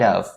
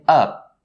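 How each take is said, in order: First: The word ends with a v sound. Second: The word ends with a p sound. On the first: The speaker calls it right. "make sure that you have the right movement for your lips for the V sound" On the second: The speaker calls it wrong. "the word of is actually ending with the P sound and not the v sound"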